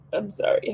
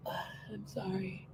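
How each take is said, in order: First: Said in the usual way. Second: Sigh, then whisper it much softer and slowly. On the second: Real, not acted. Apologizing to the viewers, a slow sighing whisper.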